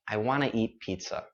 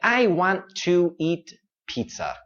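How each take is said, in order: First: 'Want to' is blended into one word, 'wanna'. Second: Both words of 'want to' are said clearly. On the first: The speaker calls it right. "sometimes we spell it like wanna" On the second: The speaker calls it wrong. "các bạn đang nói rất là rõ ràng nhưng mà không tự nhiên"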